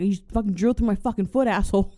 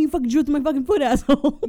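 First: Fast, a bit louder hammed-up outrage; mock angry complaint. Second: Much higher, much louder scream, half laughing; furious yell. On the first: Robber with his foot drilled snapping at the plumber, mock angry. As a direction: rattle it off, stung and indignant. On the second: Pretend. Robber with his drilled foot screaming at the plumber, loud mock rage.

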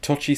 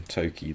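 First: Tochi with a "ch" in the middle; CH pronunciation. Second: Toki with a hard "k" in the middle; K pronunciation. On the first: Host arguing how a writer's name is said, Tochi with "ch". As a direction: say Tochi as TOTCH-ee. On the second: Host comparing readings of a writer's name, Toki with "k". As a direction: say Toki as TOH-kee. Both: Shown as a demonstration. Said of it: "Tochi sounds more African than Toki".

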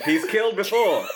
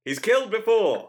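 First: Dramatic radio announcer, laughing; old-timey radio voice. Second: Dramatic vintage announcer; old-timey radio voice. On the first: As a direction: punch the line like a radio thriller. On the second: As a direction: redo it deadpan in radio style. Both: Shown as a demonstration. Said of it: "an old-timey radio voice".

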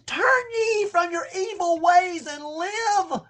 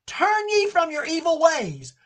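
First: Slow, high, tearful pleading; tearful plea. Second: Said in the usual way. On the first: Acted. Preacher voicing God begging Israel to turn, tearful slow plea. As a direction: plead through tears. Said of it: "But he says".

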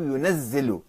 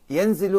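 First: ينزل said yunazzilu, doubled z; ينزل as "yu-naz-zi-lu"; with shadda. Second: ينزل said yunzilu or yanzilu, single z; ينزل with n closed straight onto z; without shadda. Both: Shown as a demonstration. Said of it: "في الحركات والشدة".

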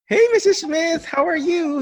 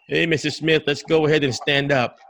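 First: Very high, loud, sing-out hello; jolly caregiver greeting. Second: Brisk caregiver order in an everyday pitch; unwelcoming caregiver. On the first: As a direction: greet the patient with over-the-top cheer. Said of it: "you come in with". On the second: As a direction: get the patient moving with no cheer. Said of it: "If I come in with like this". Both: Shown as a demonstration.

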